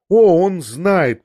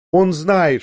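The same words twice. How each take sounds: First: "О, он знает!" drawn out slow, loud and high, the "О" stretched and falling; lost in herself. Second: "Он знает" burst out loud and higher, falling on "он"; exclaiming. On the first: Woman answers him but speaks to herself, slow and loud. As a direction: say it slowly and loudly, as if forgetting the listener. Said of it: "продолжала она отвечать мне ... как будто забыв про меня". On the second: Woman suddenly cries out, half to herself, loud and high. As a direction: blurt it out as if to herself. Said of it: "воскликнула она вдруг опять". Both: A narrator's reading.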